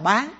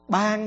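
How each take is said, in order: First: The word is said with a rising tone. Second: The word is said with a level tone. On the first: To sell for a price. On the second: To give freely as a gift.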